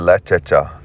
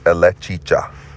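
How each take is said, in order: First: The middle vowel is an e sound. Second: The middle vowel is an i sound.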